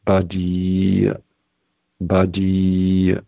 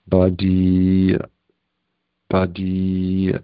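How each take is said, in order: The two takes are said the same way.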